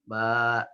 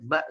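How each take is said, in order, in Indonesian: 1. Vokalnya dipanjangkan. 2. Vokalnya dibaca pendek. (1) "tidak dibaca" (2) "tapi a saja, ba saja"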